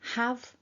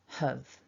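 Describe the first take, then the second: First: It is said with a full, clear vowel. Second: It is said with a short, reduced vowel.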